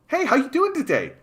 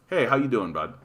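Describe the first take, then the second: First: It is said in a put-on coached voice. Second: It is said in his own natural voice.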